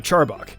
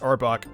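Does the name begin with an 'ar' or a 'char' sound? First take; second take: char; ar. First: The name begins with a 'ch' sound. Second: The name begins with an 'ar' vowel sound. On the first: The speaker calls it wrong. "And I thought that was how it was pronounced" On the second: The speaker calls it right. "but it's actually pronounced Arbok"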